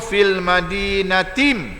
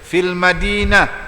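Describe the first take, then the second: First: It ends in a 'tim' sound, running on. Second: It ends in an 'h' sound, then stops. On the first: The reading continues into the next word. "bila sambung" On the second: The reading stops at this word. "kalau kita waqaf"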